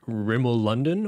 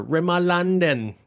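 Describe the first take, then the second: First: "Rimmel London" in the speaker's everyday accent; one way of saying Rimmel London. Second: "Rimmel London" in an exaggerated British accent; higher, drawn-out British "Rimmel London"; mock British accent. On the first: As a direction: say "Rimmel London" plainly, as at home. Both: Shown as a demonstration. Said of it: "It's the accent tales".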